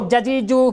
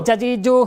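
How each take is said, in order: Both takes have the same delivery.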